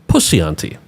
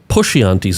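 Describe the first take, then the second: First: The name has an s sound in the middle. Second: The name has an sh sound in the middle.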